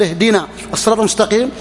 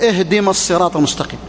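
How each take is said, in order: First: اهدنا said fully as "ehdina"; correct recitation. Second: اهدم said as "ehdim", wrong for اهدنا; mispronounced verse. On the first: Shown as a demonstration. Preacher giving the correct reading of al-Fatiha. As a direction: give اهدنا its full "ehdina" ending. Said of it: "بدل ما يقول". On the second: Retold or imitated. Preacher imitating the old man's misreading of al-Fatiha. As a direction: say اهدم with a clipped "ehdim" instead of "ehdina". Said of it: "يعني بدل ما يقول".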